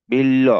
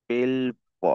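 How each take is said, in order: First: বিল্ল loud, as "bil-lo"; doubled-consonant pronunciation. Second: বিল্ব split as "bil ... bo"; spelling pronunciation. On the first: Teacher showing how the word is said, doubled-consonant pronunciation. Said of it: "এটা উচ্চারণ হবে". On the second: Teacher reading out written বিল্ব, spelling pronunciation. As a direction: sound the ব separately in বিল্ব. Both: Shown as a demonstration.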